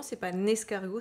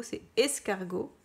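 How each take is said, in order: First: "un escargot" with the N linked onto "escargot"; teacher shows the liaison in "un escargot"; wrong liaison. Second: "escargot" said cleanly with no liaison, a bit slower; teacher gives "escargot" correctly, slowly; correct reading. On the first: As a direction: show the liaison "un escargot" as the mistake. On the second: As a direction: say "escargot" alone, no N before it. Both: Shown as a demonstration. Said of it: "est-ce que là, il y a la liaison?".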